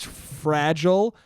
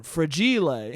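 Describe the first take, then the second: First: Said in the usual way. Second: Fragile said fra-JEE-lay, the Italian way; mock Italian fragile. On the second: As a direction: say fragile like a proud Italian word. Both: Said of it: "Oh, it's Italian".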